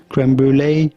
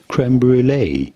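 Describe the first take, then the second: First: It is said with an English accent. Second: The same.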